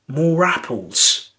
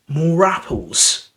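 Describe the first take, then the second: The two takes are said the same way.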